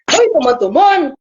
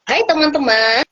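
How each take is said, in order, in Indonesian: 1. Diucapkan dengan suara besar yang dibuat-buat, seperti suara karakter. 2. Diucapkan dengan suara alami pembicara. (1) "kalau suara besar itu bisa di ah" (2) "Nah itu suara narator. Suara kita sendiri ya"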